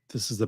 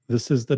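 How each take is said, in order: First: The sound has a bright, treble-heavy tone. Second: The sound has a dark, bass-heavy tone. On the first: "This is the bright setting" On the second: "This is the dark setting"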